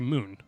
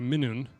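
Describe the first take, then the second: First: The word is shortened to one syllable. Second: The word is said in full, two syllables. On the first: This is the everyday spoken form. "you'd just say moon" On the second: This is the proper written-style form. "you wouldn't say Minun"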